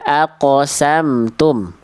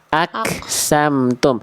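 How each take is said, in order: First: The consonant is a deep q with a bounce. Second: The consonant is a plain front k sound. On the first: The speaker calls it right. "Kof itu dipantulkan Bunda" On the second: The speaker calls it wrong. "tadi Bunda baca jadi kaf"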